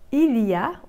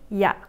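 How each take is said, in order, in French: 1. Le son L est bien prononcé. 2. Le son L est complètement supprimé.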